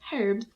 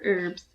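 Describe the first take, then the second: First: It is said in a non-American way. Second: It is said in an American way.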